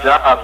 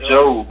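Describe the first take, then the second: First: The name sounds like the ordinary word job. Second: The name sounds different from the word job. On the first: This is how the speaker first read the name. The speaker calls it wrong. "I looked at it as job" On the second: This is how the audiobook said the name. The speaker calls it right. "once I heard the audio book"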